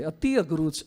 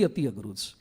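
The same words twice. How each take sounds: First: અતિ pressed firmly, rest even; અતિ held with weight; stress on અતિ. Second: અતિ said low and soft, falling away; quiet weighty stress. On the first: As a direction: lean on the word અતિ. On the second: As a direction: sink into અતિ, lower and much softer. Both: Shown as a demonstration. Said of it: "અતિ, અતિ".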